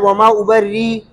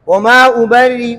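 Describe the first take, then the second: First: The word ends on a held ee with no hamza. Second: The word ends on a softened hamza with faint vowel. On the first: "पहली सूरत इब्दाल है" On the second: "रौम मा तस्हील"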